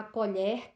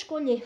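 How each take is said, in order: First: Colher with the E open, like "co-lhér". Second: Colher with a closed O and a closed E, like "co-lhêr". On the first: Teacher showing the noun's open E to students, clearly. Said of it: "o som do E é aberto". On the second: Teacher showing the verb's closed sounds to students, clearly. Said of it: "o som do O, ele é fechado". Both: Shown as a demonstration.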